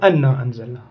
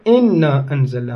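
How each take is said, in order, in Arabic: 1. تبدأ الكلمة الأولى بحركة 'a'. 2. تبدأ الكلمة الأولى بحركة 'i'. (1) "مو أن أنزلنا" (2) "شوفوا في سورة القدر إن أنزلنا"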